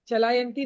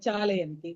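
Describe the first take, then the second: First: The second syllable has the long vowel. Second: The first syllable has the long vowel. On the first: The speaker calls it wrong. "चलायंती नहीं है" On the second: The speaker calls it right.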